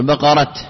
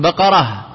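First: The word ends with a clear t sound. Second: The word ends with a soft h sound. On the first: "تقف عليه بالتاء" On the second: "بدل تقول بقرة"

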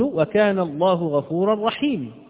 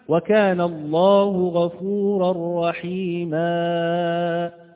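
First: The final long vowel is dropped entirely. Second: A vowel is stretched into an extra long sound. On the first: "أن أحذف حرف المد ... هذا لحن جلي" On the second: "هذا لحن جلي، لأنك وضعت أو أشبعت الحركة إشباعا ولد حرفا زائدا"

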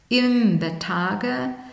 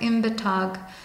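First: The word ends with an unstressed e sound. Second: The word ends without an unstressed e sound.

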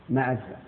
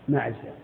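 No difference in how they are said.

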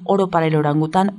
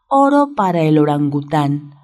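First: The phrase is said fast. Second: The phrase is said slowly. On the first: "y ya después lo vamos haciendo rápido" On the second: "Lento, lento"

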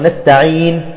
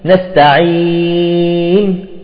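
First: The long vowel is held for two counts. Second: The long vowel is held for six counts. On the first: "بالمد اثنين" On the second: "وستة"

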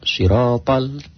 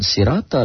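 First: The first sound is a heavy, emphatic s. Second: The first sound is a light, plain s. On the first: The speaker calls it right. "tapi sod" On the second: The speaker calls it wrong. "Bukan siratal, bukan sin"

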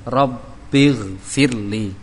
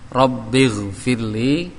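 The two takes are said the same way.

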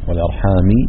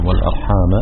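First: The word ends with an i-vowel. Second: The word ends with an a-vowel. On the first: People ask one another by God and by kinship. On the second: Be mindful not to cut the ties of kinship.

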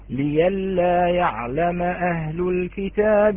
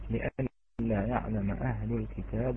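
First: The first word has a y sound instead. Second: The first word has a glottal stop in it. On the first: "هذه الهمزة تبدل عند ورش إلى ياء" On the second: "نلاحظ أن هذه الهمزة مفتوحة وقبلها مكسور"

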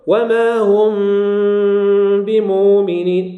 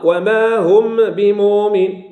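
First: The m is lightly hidden before the b. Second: The m is clearly pronounced before the b. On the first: The speaker calls it right. "لكن المرحلة إيش؟" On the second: The speaker calls it wrong. "الإظهار"

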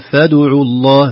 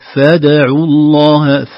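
First: The dal is rounded toward the following vowel. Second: The dal is kept neutral, with lips unrounded. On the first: The speaker calls it wrong. "ما نقول فادعوا الله" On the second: The speaker calls it right. "نقول فادعوا الله"

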